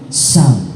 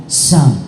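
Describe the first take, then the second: Both takes have the same delivery.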